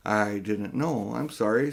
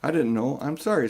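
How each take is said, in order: First: Slow, humble apology; humbly. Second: Humbly. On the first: Polly apologising to Diggory, slow and humble. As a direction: say it slowly, sorry you asked. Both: A narrator's reading. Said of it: "said Polly humbly".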